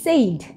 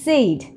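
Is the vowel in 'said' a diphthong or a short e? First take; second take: diphthong; diphthong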